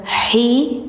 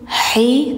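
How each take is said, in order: No difference in how they are said.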